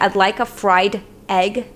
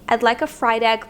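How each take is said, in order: First: The final d and egg are kept apart. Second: The final d runs straight into egg. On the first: "instead of saying" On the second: "they'll link those two sounds"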